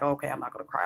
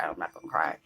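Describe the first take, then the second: First: Said in the usual way. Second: Low whisper, fighting the lump in the throat; low, whispered self-talk against tears; whisper holding back tears. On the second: Retold or imitated. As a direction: whisper it to yourself so you won't cry. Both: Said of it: "that lump in your throat when you're like".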